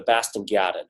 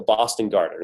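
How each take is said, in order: First: "Boston Garden" with dropped R's in a Boston accent. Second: Said in the usual way. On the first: Shown as a demonstration. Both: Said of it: "how they say it with the accent".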